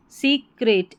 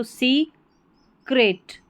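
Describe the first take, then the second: First: Said in the usual way. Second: secret split slowly as "सी... crate"; broken into syllables. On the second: Shown as a demonstration. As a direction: pause between सी and crate in secret. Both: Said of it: "तोड़ के pronounce करना".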